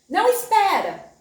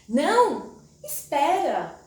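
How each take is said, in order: First: The two words run together without pause. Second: There is a pause after não.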